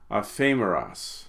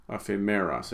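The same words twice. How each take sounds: First: "Aphemeros" stressed on "phe", a-PHE-meros; misplaced accent. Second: "Aphemeros" stressed on "me", a-phe-ME-ros; corrected accent. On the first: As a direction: stress the second syllable of "Aphemeros". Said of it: "I should say. Read the accent there". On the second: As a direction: stress the third syllable of "Aphemeros". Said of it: "Read the accent there". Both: Shown as a demonstration.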